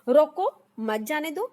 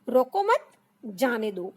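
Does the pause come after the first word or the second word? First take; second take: first word; second word. First: The pause comes after the first word. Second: The pause comes after the second word. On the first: The person should be stopped. "मतलब किसी को रोकने के लिए मैं कह रही हूँ" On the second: The person should be allowed to go. "मतलब उसको जाने दो भाई, रोको मत"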